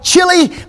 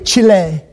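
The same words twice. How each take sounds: First: The name is said the older anglicized way. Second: The name is said the Spanish way. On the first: This is how people used to say it. The speaker calls it wrong. "we used to call it Chile" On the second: This is how it should be said now. The speaker calls it right. "now you have to say it correctly"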